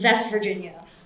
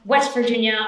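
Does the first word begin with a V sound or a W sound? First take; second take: V sound; W sound. First: The first word begins with a V sound. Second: The first word begins with a W sound.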